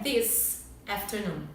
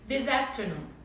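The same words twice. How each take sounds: First: The two words are said separately. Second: The two words are joined together. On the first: The speaker calls it wrong. "a gente não pronuncia this afternoon" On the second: The speaker calls it right. "A gente fala juntos"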